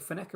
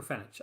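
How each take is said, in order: First: Fenech ending in a hard K sound. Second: Fenech ending in a soft CH sound. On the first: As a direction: say Fenech as "feh-NEK". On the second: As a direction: say Fenech as "FEN-itch". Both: Shown as a demonstration. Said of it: "I can never get that pronounced right".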